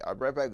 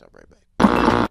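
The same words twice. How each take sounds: First: Said in the usual way. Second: Slow, low "I'll be right back"; slow deep sign-off. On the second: Acted. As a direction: drop the voice low and drag it out. Signing off before break, slow low.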